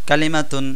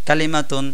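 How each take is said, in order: The two takes are said the same way.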